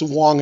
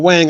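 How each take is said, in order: First: The vowel is the rounded 'o' as in 'long'. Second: The vowel is the flat 'a' as in 'bang'. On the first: This is how the name is said in its original language. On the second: This is the everyday anglicized pronunciation.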